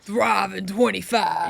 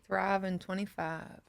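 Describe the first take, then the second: First: It is said loudly, with force. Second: It is said quietly, without force.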